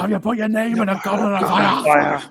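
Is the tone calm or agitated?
agitated. It is asked in an agitated voice.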